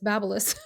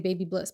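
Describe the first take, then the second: First: It sounds like one word, babyliss. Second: It sounds like two words, baby bliss. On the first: This is the brand's actual pronunciation. The speaker calls it right. "but it's Babyliss" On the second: This is how the speaker would naturally say it. The speaker calls it wrong. "I would say baby bliss"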